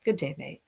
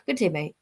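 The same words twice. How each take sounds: First: A softer, lower "Good day, mate" with a light Australian twang; mock Aussie greeting. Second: A hint of an Australian accent on "Good day, mate"; lightly put-on Australian accent greeting a fan; mock Aussie greeting. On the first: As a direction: repeat the Australian greeting quietly. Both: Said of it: "I always gotta say that to her".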